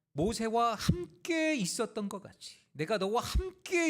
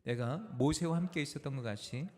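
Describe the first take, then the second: First: 함께 stretched out, high and loud; slow down and belt out 함께 each time; stress on 함께. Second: Said in the usual way. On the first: Shown as a demonstration. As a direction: preach it, leaning hard and long on 함께. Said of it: "두 번이나 강조하셨던 말씀이". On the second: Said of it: "함께 읽습니다".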